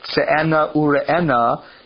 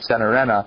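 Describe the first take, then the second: First: It is said with a Hebrew pronunciation. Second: It is said with a Yiddish pronunciation.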